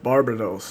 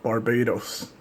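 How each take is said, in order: First: It is said like the demon's name. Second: It is said like the country's name. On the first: The speaker calls it right. "it's pronounced Barbados" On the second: The speaker calls it wrong. "not Barbados"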